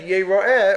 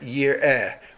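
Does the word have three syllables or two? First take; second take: three; two. First: The word is said ye-ra-eh, in three syllables. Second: The word is said yir-eh, in two syllables. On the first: All the males will appear. "Or is it read Yeroer, or pronounced Yeroer" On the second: All the males will see. "Do you pronounce it year air"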